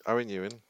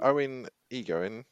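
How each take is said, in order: First: EWAN as YOO-in, no g sound; name pronounced correctly. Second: EGOIN said slowly in place of Ewan; name mispronounced. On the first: Host echoing co-host's correction, EWAN said correctly. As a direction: repeat EWAN cleanly as YOO-in. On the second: Host thanking a listener, botching the surname as EGOIN. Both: Real, not acted.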